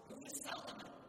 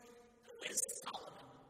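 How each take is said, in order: First: It is asked in a plain, neutral tone. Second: It is asked with a tinge of anger. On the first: The answer is a simple, known fact. "you would again answer" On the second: The asker is upset by what this person did. "with a tinge of anger in your voice"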